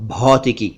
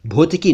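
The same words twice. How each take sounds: First: भौतिकी with open "au"; "aw" vowel in भौतिकी; correct भौतिकी. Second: भौतिकी with rounded "o"; quick "oh" in भौतिकी; mispronounced भौतिकी. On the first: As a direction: say भौतिकी as "bhautiki". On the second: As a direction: say भौतिकी wrongly as "bhotiki". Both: Shown as a demonstration. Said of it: "भौतिकी नहीं".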